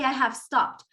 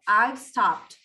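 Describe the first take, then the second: First: 'Have' is said fully as a separate word. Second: 'Have' is shortened and joined to 'I'. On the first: "They don't say I have stopped" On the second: "they are contracting it. So notice how this sounds"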